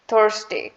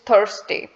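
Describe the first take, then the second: First: The R sound is strong and clearly heard. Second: The R sound is strong and clearly heard.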